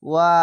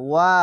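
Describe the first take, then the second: No difference in how they are said.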